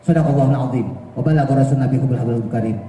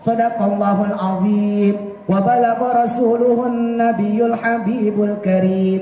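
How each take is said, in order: First: It is recited quickly with clipped, short vowels. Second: It is recited slowly with long, drawn-out vowels. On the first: The speaker calls it wrong. "Coba kalau bacanya cepat" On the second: The speaker calls it right. "Kan gitu"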